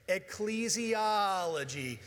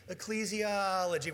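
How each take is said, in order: First: Slow call-and-response. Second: Said in the usual way. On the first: Shown as a demonstration. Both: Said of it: "Say it with me".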